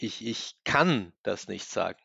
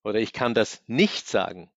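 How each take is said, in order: First: „kann“ podkreślone, wolniej i ciszej; stress on kann. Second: „nicht“ wyraźnie podkreślone; stress on nicht. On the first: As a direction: lean on the verb kann. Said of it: "Prädikat betonen". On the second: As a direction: punch the word nicht. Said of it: "welchen Teil des Satzes ich betone". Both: Shown as a demonstration.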